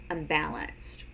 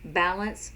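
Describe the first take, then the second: First: "unbalanced." lower, falling; "unbalanced." falling low against balance; contrast word. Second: "Balance," with a light rising tune; "Balance," rising, set against unbalanced; contrast word. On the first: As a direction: let "unbalanced." drop down and fall. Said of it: "so unbalanced". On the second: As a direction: say "Balance," lifting up at the end. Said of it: "this is balance". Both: Shown as a demonstration.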